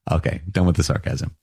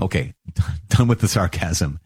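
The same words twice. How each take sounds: First: Said in the usual way. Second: Laughing through the words. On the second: Real, not acted. Teacher dropping the sarcasm, laughing lightly. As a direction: chuckle while wrapping up.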